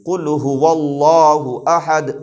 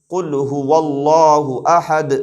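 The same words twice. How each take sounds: The two takes are said the same way.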